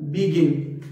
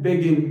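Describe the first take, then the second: First: बिगिन said 'bi-GIN', first vowel an i; correct pronunciation demo. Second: बिगिन said 'bay-gin'; common mispronunciation. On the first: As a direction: model बिगिन with 'bi', not 'bay'. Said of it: "इसकी जो correct pronunciation है वो है". (बिगिन का सही उच्चारण, 'बि' से) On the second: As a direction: give बिगिन a long 'be' as in bay. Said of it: "लोग इस वर्ड को बोलते हैं". (बिगिन का गलत उच्चारण, 'बेगिन') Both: Shown as a demonstration.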